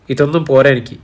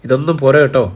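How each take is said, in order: First: Eager, hungry demand, lightly voiced; a hint of greed as she gobbles food; greedy. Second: Lightly greedy insistence; a mild, hungry plea for more. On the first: (ആർത്തിയോടെ, നേരിയ ആവേശം) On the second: (നേരിയ ആക്രാന്തത്തോടെ) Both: A narrator's reading. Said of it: "ആക്രാന്തത്തോടെ പറഞ്ഞു".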